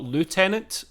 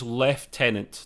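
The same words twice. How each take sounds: First: It is said the American way, like loo-tenant. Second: It is said the British way, like lef-tenant.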